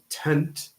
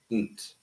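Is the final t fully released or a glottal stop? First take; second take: released; glottal stop. First: The final t is fully released. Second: The final t is a glottal stop. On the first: "instead of saying tent" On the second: "With a glottal stop"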